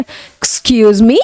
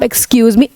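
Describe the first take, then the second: First: It sounds like a puzzled, questioning reply. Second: It sounds like a polite call for attention. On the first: The speaker does not recognize the other person. "तब भी आप ऐसे excuse मी, मतलब आपने नहीं पहचाना उसको" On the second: The speaker is interrupting someone. "आप किसी को टोकते हैं तो भी आप एक्सक्यूज मी"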